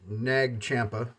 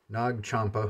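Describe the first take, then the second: First: The name is said with an American pronunciation. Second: The name is said with a non-American pronunciation. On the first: The speaker calls it wrong. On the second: The speaker calls it right.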